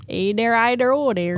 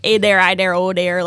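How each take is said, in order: First: Put-on lightly done Wisconsin accent again; a touch of Wisconsin twang. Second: Put-on light Wisconsin accent, playful; hint of an Upper Midwest Wisconsin accent. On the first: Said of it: "that's the Wisconsin accent". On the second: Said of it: "I'll do the accent".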